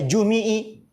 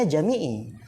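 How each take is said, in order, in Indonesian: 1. Vokal pertama adalah u. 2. Vokal pertama adalah a. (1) "bisa aja antum baca jumi'i" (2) "oh Ustadz bacanya jami'i"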